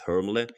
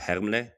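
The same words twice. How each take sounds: First: It is said with an American English pronunciation. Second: It is said with a German pronunciation. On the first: "the American audience will pronounce it as Hermle" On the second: "also Hermle in German"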